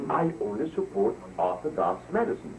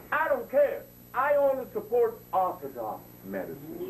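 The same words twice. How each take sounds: First: Said in the usual way. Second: Imitating her. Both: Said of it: "she said".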